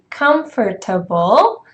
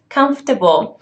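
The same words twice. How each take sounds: First: Every syllable is said carefully in full. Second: The word is said in a shortened, reduced form. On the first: The speaker calls it wrong. "uncomfortable to say it like this" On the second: The speaker calls it right. "this word would be pronounced as comfortable"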